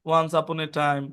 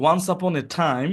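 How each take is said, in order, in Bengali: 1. বাক্যাংশটি সাধারণভাবে, সহজ সুরে বলা হয়েছে। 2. বাক্যাংশটি জাঁকালো, ঢং করে বলা হয়েছে।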